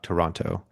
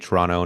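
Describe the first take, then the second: First: It is said the way outsiders say it. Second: It is said the way locals say it. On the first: The speaker is not from the city. "not Toronto" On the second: The speaker is actually from the city. "if you're from there, you say Toronto"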